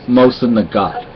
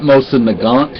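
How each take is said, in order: First: No N sound is heard before the final T. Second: An N sound is heard before the final T. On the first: The speaker calls it right. "you do not pronounce the N in Nagat" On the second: The speaker calls it wrong. "It's not Mosin Nagant"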